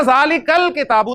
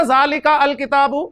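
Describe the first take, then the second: First: जालिकल किताबु with the ka flowing straight into the लाम; teacher giving the right reading; correct reading. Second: जालिका अल किताबु read slowly, with the अ of अल sounded as a separate syllable; teacher showing the wrong way to join the words. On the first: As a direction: join जालिकल किताबु smoothly, with the hamza silent. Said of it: "मैं पढ़ूंगा". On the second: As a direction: say जालिका अल किताबु pronouncing the hamza as a mistake. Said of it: "मैं क्या ऐसे पढ़ूंगा". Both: Shown as a demonstration.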